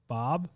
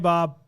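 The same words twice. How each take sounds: First: The voice rises on the name, like a question. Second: The voice stays flat on the name, like a statement. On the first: The caller is asking, which creates intrigue. The speaker calls it right. "I just asked Bob a question" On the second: The caller is announcing themselves, which invites a hang-up. The speaker calls it wrong. "I didn't say"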